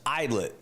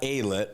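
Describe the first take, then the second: First: The first syllable sounds like 'eye'. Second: The first syllable does not sound like 'eye'. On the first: The speaker calls it right. "it's idlet, like uh, I like your eyeball" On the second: The speaker calls it wrong. "not alet"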